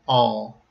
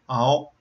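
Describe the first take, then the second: First: It ends with an open mouth and curved tongue. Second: It ends with rounded lips and an o sound. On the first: The speaker calls it right. "to say the English word" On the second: The speaker calls it wrong. "you end up rounding your lips, and you also close your mouth some to make this sound"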